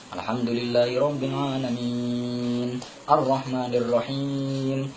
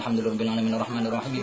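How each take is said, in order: First: It is recited with the long vowels held long. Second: It is recited fast with long vowels cut short. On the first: Every letter is kept, so the recitation is valid. The speaker calls it right. "pasti dia panjang karena ada ya mati" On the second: Letters are dropped, making the recitation invalid. The speaker calls it wrong. "dia jurusnya jurus lari lari panter dia"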